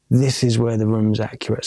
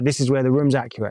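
First: Deliberate repeat. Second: Said in the usual way. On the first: Retold or imitated. Engineer repeats it when questioned.

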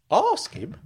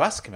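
First: Startled echo. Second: Said in the usual way. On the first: Acted. Uncle challenges Frank, "Ask him" high and startled. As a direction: ASK HIM pitched high, dropping at the end.

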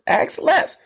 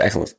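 First: EXCELLENCE cried out very high; high exclamation. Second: Said in the usual way. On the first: Shown as a demonstration. Host hyping the excellence people ask for, high exclamation. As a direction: squeal EXCELLENCE like a triumphant slogan. Repeats word as emphatic exclamation.

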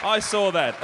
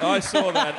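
First: "I saw that." with I punched; stress on I. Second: "I saw that." with saw punched; stress on SAW. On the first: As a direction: hit the word "I", let "saw that" fall. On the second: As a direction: lean on "saw", keep "I" light. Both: Shown as a demonstration.

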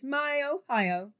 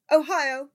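First: Slow, much higher, drawn-out crow; high treble. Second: Much higher, loud crowing; high treble crow. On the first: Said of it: "crowed in high treble". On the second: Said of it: "the editor crowed in high treble". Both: A narrator's reading.

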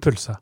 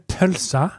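First: "pølsa" said as "pulsa"; pronounced with u. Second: "pølsa" with a rounded ø vowel; pronounced with ø. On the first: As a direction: say "pølsa" with u in place of ø. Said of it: "Men er det pølsa". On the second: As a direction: say "pølsa" with a clear ø, as in "pølse". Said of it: "eller er det pølsa". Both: Shown as a demonstration.

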